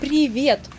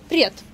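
First: The word is said in its full form. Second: The word is said in a shortened form. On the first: "расшифровка этого слова – привет" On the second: "часто мы говорим «привет»"

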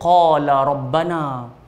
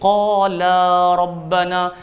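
First: The final vowel of the first word is short. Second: The final vowel of the first word is long. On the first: One person said it. The speaker calls it wrong. "kalau kita pendekkan la tadi tu" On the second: Two people said it. The speaker calls it right. "Bila dua orang jadi qala rabbana"

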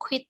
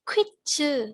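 First: The word ends abruptly on a consonant. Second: The word ends with an added final vowel. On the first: The speaker calls it wrong. "ภาษาเกาหลีไม่อ่านว่าควิดตรงๆอย่างนี้นะ" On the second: The speaker calls it right. "จะอ่านว่าควิดจือ"

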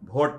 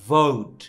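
First: The word begins with a breathy bh sound. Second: The word begins with teeth on the lower lip. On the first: The speaker calls it wrong. "আমরা কি বলি ভোট" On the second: The speaker calls it right. "এটা হচ্ছে ভোট"

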